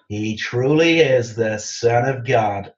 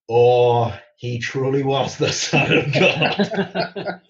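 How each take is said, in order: First: It is said flatly, without awe. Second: It is said with an exaggerated awed "Oh".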